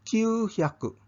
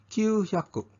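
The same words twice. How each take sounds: No difference in how they are said.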